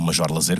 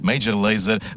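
First: The name is read with Portuguese pronunciation. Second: The name is read with English pronunciation.

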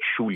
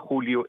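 First: The name is said the Galician way. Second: The name is said the Spanish way. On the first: "em galego é Xúlio" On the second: "Em espanhol é Júlio"

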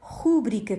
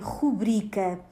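First: The stress is on the first syllable. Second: The stress is on the second syllable. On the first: The speaker calls it wrong. "com acento sobre a vogal U" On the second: The speaker calls it right. "a tónica na sílaba bri"

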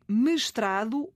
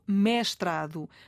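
First: The first e is a closed vowel. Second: The first e is an open vowel.

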